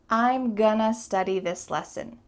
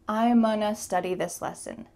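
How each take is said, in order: First: The g sound in gonna is pronounced. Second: The g sound in gonna is dropped.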